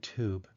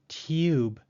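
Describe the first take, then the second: First: No Y sound comes before the vowel. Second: A Y sound comes before the vowel. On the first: This is how an American speaker says it. "rather than tube" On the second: This is how a British speaker says it. "A British speaker, however, will try to say tube"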